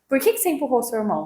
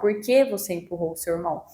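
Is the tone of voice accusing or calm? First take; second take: accusing; calm. First: The question is asked in an accusing tone. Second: The question is asked in a calm tone. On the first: The child feels blamed and attacked. The speaker calls it wrong. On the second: The child feels welcomed rather than accused. The speaker calls it right.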